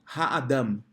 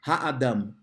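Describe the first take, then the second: No difference in how they are said.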